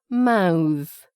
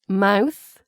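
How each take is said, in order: First: The final th sound is voiced. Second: The final th sound is voiceless. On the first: It is used as a verb. "which is the verb" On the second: It is used as a noun. "which is the noun"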